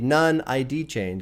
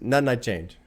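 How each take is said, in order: First: The title is read out carefully and literally. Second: The title is said in a relaxed, casual way. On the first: The speaker calls it wrong. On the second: The speaker calls it right. "But it's none I change"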